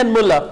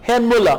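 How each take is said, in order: First: Herrn Müller said fast with the r dropped, like hen Müller; quick Herrn. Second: Herrn Müller with a throaty German r, like hegen Müller; careful Herrn. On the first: Teacher shows the casual spoken form to students, quick slurred Herrn. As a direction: rush Herrn into Müller, swallowing the r. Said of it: "जल्दी में हम कहते हैं". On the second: Teacher gives students the correct full form, throaty German r in Herrn. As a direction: sound out the guttural r in Herrn clearly. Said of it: "actual word है". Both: Shown as a demonstration.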